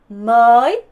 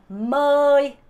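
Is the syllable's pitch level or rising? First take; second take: rising; level. First: The pitch rises on the syllable. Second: The pitch stays level without any tone. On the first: "성조가 올라가니까" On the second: "성조 없이 하면"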